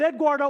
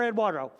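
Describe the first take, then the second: First: First Eduardo as ed-GWAR-doh; hard-d pronunciation. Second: Second Eduardo as ed-WAR-doh; soft-w pronunciation. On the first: Preacher asking the crowd, Eduardo said as ed-GWAR-doh. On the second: Preacher asking the crowd, Eduardo said as ed-WAR-doh. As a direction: say Eduardo with a smooth w in the middle. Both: Shown as a demonstration. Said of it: "Somebody tell me, is it".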